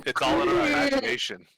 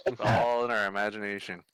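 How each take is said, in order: First: High, sing-song take; high mock voice. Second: Said in the usual way. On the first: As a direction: say it up high, playfully. Repeats line, first take high.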